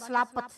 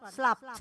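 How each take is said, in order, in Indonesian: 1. Ada vokal tambahan yang memisahkan p dan t. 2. P dan t disatukan. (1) "jangan baca slapet" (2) "Kalau P dengan T-nya disatukan"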